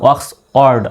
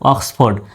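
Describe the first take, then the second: First: The f sound is dropped before the second part. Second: The f sound is kept before the second part. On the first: The speaker calls it wrong. "এখন কিন্তু উচ্চারণটা আসতেছে না, অক্স অর্ড আসতেছে" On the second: The speaker calls it right. "এইভাবে আমি ভাঙলাম"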